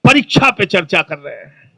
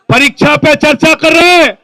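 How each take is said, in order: First: "परीक्षा पे चर्चा" murmured much lower and softer, mock-moved; a hushed gush about "परीक्षा पे चर्चा"; mock tearful admirer. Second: Said in the usual way. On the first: Imitating a weepy admirer who whispers "परीक्षा पे चर्चा कर रहे हैं". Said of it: "कई लोग रोने लगते हैं". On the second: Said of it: "कहते".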